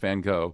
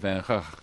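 First: The name is said with an American pronunciation. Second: The name is said with a Dutch pronunciation. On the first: This is how Americans say the name. "The American pronunciation is Van Gogh" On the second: This is how the Dutch say the name. "The Dutch pronunciation is so complicated"

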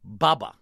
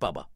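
First: The name sounds like 'baba' in Alibaba. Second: The name does not sound like 'baba'. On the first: The speaker calls it right. "As in Alibaba" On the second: The speaker calls it wrong. "Not Bubba"

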